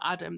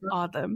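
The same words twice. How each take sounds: First: The name is said with an English pronunciation. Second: The name is said with an Arabic pronunciation. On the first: The speaker calls it wrong. "the anglicized or the English version of the name" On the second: The speaker calls it right. "in Arabic, it is is pronounced Adam"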